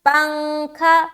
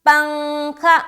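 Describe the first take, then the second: Both takes have the same delivery.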